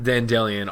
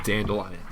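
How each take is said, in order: First: Dandelion said as dan-DELL-ee-un, louder; Dandelion with stressed DELL, ending in "ee-un"; the other pronunciation. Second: Dandelion said as DAN-duh-lion, firmly; preferred pronunciation. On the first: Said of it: "Say Dan-, Dandelion". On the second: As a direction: stand by Dandelion ending in "lion". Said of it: "I'm sticking with Dandelion". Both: Shown as a demonstration.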